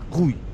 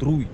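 First: The name begins with a throaty h sound. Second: The name begins with a rolled r sound. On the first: This is how the man himself says his name. "Но говорит он как Хуй" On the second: This is how the name is written. "Человека зовут Руй"

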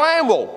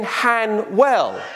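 First: The H is dropped and the end sounds 'wall'. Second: The H is pronounced and the end sounds 'well'. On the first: The speaker is a local. The speaker calls it right. "You drop the H and you stick an A where an E should be" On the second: The speaker is not from the area. The speaker calls it wrong. "that's not how you pronounce it"

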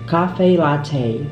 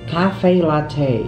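The two takes are said the same way.

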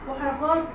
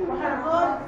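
No difference in how they are said.

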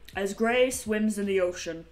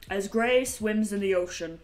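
First: It is said in a put-on narrator voice. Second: The same.

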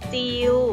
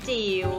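First: The word is said with a level mid tone. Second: The word is said with a rising tone. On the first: "เริ่มจากจิว" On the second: "และไม้จัตวาค่ะจิ๋ว"

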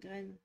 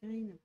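First: The vowel is a French ay sound. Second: The vowel is a long ee sound. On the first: The speaker calls it wrong. "pas graine" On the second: The speaker calls it right. "Green, pas graine"

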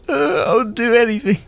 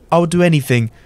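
First: The voice sounds close to tears. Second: The voice sounds plain, without tears. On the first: The speaker calls it right. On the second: The speaker calls it wrong.

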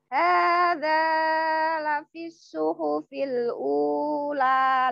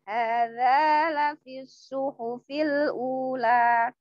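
First: The long vowels are drawn out far too long. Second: The long vowels are held for about two beats. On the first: The speaker calls it wrong. "Lah niku terlalu panjang" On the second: The speaker calls it right. "Jadi ngoten mawon. ... Tiap ada panjang seperti itu dua mawon"

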